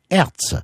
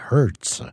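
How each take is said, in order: First: The name is pronounced the French way. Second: The name is pronounced the English way.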